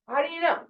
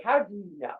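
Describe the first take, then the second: First: "How do you know?" much higher, incredulous; challenging question. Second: Said in the usual way. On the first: Shown as a demonstration. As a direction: toss the question up high in disbelief. Repeats the question three ways.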